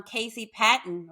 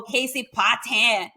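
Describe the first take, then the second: First: "Patton" said PAT-n, stress on first syllable; "Patton" with an unstressed, swallowed last syllable; Texas pronunciation. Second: "Patton" said pah-TAN, French-style; teasing imitation, "Patton" stretched to pah-TAN; mocked Cajun pronunciation. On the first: Shown as a demonstration. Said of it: "here in Texas, I'm". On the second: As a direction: say "Patton" with open first vowel and full "tan" ending. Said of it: "people made fun of my last name".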